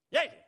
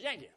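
First: High, loud call; louder repeated call. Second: Said in the usual way. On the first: Acted. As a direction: call out sharply to someone who didn't hear. Repeats the call louder when unheard.

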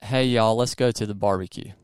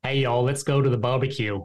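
First: Easy Southern US accent; natural Southern American accent, for copying. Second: Put-on Australian trying on a Southern accent; amateur attempt at Southern American accent; imitated Southern accent. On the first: Shown as a demonstration. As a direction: demonstrate your own Southern twang. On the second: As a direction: copy a Southern US accent, a bit uncertainly. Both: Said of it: "you say this in my accent".

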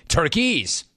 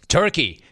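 First: "Turkeys" higher, with a clear plural s at the end; mock plural. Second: Said in the usual way. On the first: Host mocking Pierce's slip, pointed plural "Turkeys". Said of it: "he calls it Turkeys". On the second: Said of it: "it's Turkey".

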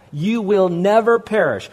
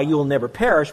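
First: Never pressed down firmly; never emphasised; stress on never. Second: Said in the usual way. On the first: Shown as a demonstration. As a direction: lean on never. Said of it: "There's no qualifier". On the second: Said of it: "underline the word never".

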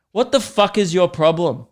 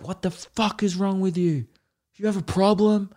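First: A louder, higher pretend snap at the kid; playfully fake-confront the toddler; mock confrontation. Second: Mock outburst. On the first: Man imagining snapping at a staring toddler, mock angry. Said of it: "turn around and be like". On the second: Man savouring the moment of yelling at a kid, hammed-up rage. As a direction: relish the fake outburst. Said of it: "as you're saying it".

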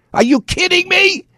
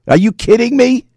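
First: Very high, squealed disbelief; incredulous outburst. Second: High-pitched disbelieving question; incredulous. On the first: Host escalating over the report, utterly incredulous. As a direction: pitch shooting right up in outrage. Repeats the outraged question, escalating. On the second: Host reacting to the report, incredulous. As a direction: ask it in raised, indignant disbelief. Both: Real, not acted.

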